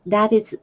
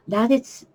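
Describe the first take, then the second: No difference in how they are said.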